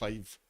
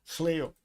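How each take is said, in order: First: It is said with a long 'eye' sound. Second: It is said with an 'ee-oh' ending. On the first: The speaker calls it wrong. "I don't know how to pronounce this" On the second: The speaker calls it right. "That's how it is"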